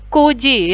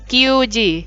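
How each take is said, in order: First: The first syllable is a plain ku. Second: The first syllable has a y glide, kyu. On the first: The speaker calls it right. "pakainya kuji" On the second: The speaker calls it wrong. "bukan kyuji"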